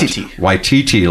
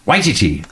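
First: The stress falls on a later syllable. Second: The stress falls on the first syllable. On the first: The speaker calls it wrong. "I would have thought Waititi, like Waikiki" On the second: The speaker calls it right. "They said the accent on the first syllable"

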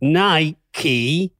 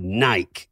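First: It is said the American way, 'Ny-kee'. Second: It is said the British way, 'Nyke'.

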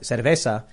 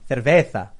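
First: The z is pronounced like an s. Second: The z is pronounced like a th. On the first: The speaker calls it wrong. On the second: The speaker calls it right.

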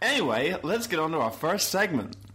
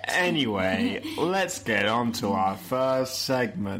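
First: It is said with a slight American accent. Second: It is said flatly in the speaker's usual accent. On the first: The speaker calls it right. "That was beautiful. You also put on a little bit of American accent there" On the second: The speaker calls it wrong. "you sound so excited about it"

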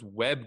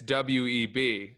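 First: It is said as a single word. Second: It is spelled out as three separate letters. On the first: The speaker calls it wrong. "I thought it was Webb Du Bois" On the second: The speaker calls it right. "and it's W-E-B"

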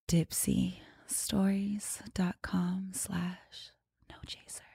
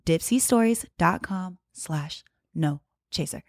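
First: It is said in a sultry, seductive voice. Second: It is said in a plain, normal voice.

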